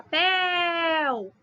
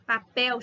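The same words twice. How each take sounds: First: PEL in "papel" held long, like calling out; "papel" with a drawn-out, higher PEL; calling the syllable. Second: Said in the usual way. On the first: Shown as a demonstration. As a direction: call out "papel", stretching the last syllable. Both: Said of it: "chamei a sílaba".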